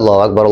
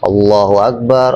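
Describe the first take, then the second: First: The phrase is said quickly. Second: The phrase is said slowly and drawn out. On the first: This is how the short call before prayer goes. "Kalau komat kan cepat" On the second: This is how the main call to prayer should go. "adzannya pelan-pelan, adzan tartil"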